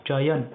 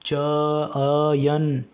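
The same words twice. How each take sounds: First: Said in the usual way. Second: चयन stretched slowly, first vowel held long and loud; drawn-out syllables. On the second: Shown as a demonstration. Teacher showing students the sound inside the word, चयन drawn out. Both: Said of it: "बोलो चयन".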